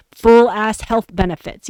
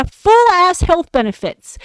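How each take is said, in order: First: Said in the usual way. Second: Higher, pushed repeat of full ass health benefits; emphatic repeat. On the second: Real, not acted. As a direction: hit FULL higher as if to say can you believe it. Repeats the perk list, emphatic.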